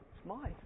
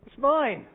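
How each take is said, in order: First: Put-on a soft, stubborn little boy's "It's mine"; child's voice, quietly. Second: Put-on higher, louder child's "It's mine"; stubborn child. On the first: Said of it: "he'll say". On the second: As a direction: shout "It's mine" like a stubborn five-year-old. Child clinging to knife.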